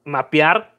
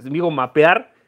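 First: Mapear said "map-yar" with a rising end; Spanglish word. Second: Mapear said "map-yar", firmer and falling into place; Spanglish word. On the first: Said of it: "yo digo parquear". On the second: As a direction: confirm mapear as his own Spanglish. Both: Shown as a demonstration.

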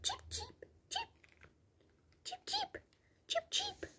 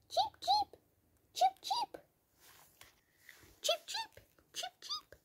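First: Very high, whispered little cheeps; tiny bird whispering cheeps; whispered bird chirp. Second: Very high, soft chirping; high little cheeps; bird chirp. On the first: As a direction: breathe the peeps like a far-off chick. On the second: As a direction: peep like a tiny bird. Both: Pretend.

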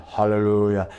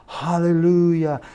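First: Restrained retold pastor's exclamation; pastor's hallelujah. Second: High, drawn-out mock cheer; imitated congregation cheer. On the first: Pastor responds to the prophecy, restrained hallelujah. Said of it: "And the pastor said". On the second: Whole church reacts to the missionary call, imitated screaming cheer. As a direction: stretch it out high like a rejoicing church. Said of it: "The whole church started screaming".

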